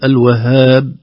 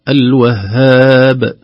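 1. الـ b الأخير بالكاد يُخرج، الشفتان تنطبقان فقط. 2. الـ b الأخير يُنطق بقلقلة متوسطة. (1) "وكذلك لا يضعف" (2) "صوت عضوي النطق متوسطا"

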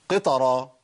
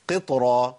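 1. بعد صوت التاء حركة فتحة كاملة. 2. بعد صوت التاء حركة خفيفة فقط. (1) "ما اقولش قطرة" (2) "اقول قطرة"

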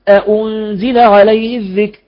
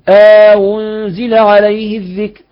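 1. الهمزتان محققتان، دون إدخال ألف بينهما. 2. الهمزة الثانية مسهّلة، مع إدخال ألف بينهما. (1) "مثل حفص" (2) "هذا مثل قالون"

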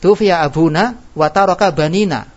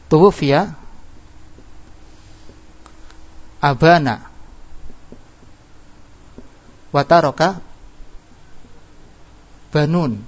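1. Kata kedua memiliki huruf u setelah b. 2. Kata kedua memiliki huruf a setelah b. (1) "Harusnya apa? Tufiya abuna, dibaca rafa harusnya ya" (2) "Salah ini bacaannya"

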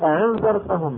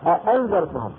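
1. الهمزة الثانية مخففة، وليست منطوقة كاملة. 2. الهمزة الثانية منطوقة كاملة وواضحة. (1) "الذي معتاد أن يسهل الهمزة يقول أعنذرتهم" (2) "يقول بين الهمزة الثانية أأنذرتهم"

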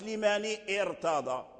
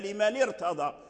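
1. تبدأ الكلمة الثانية بهمزة. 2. تتصل الكلمتان بلا همزة. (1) "ما نقولش ليماني ارتضى" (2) "فإذا وصلنا ليماني حذفنا الهمزة"

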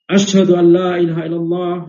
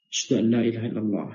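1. Frasa ini diucapkan dengan suara keras dan tinggi. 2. Frasa ini diucapkan dengan suara lembut dan rendah. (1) "tapi dengan suara keras seperti biasa azan biasa" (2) "dengan suara yang munkhafid, yakni suara yang lirih"

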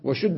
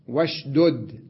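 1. يُدغم الحرفان الدالان فيصيران دالًا واحدة مشددة. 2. الحرفان الدالان منفصلان. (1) "لكان صحيحا" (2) "بالفك"

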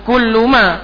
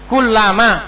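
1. Vokal setelah L ganda adalah 'u'. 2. Vokal setelah L ganda adalah 'a'. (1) "bukan kulluma" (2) "itu yang betul sambung"

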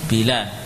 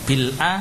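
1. Huruf l langsung menyambung ke a, tanpa hamzah. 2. Hamzah memisahkan l dan a.

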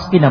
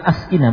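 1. Hamzah itu tersambung dengan lancar ke kata sebelumnya. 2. Hamzah itu dilafalkan terpisah dengan hentian glotal. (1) "hamzanya hamzah wasal" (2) "bukan askina"

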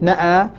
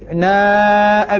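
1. تأتي الهمزة قبل حرف المد. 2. تأتي الهمزة بعد حرف المد. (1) "لاحظ الهمزة بعد النون" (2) "يؤخرها ابن ذكوان إلى ما بعد الألف"

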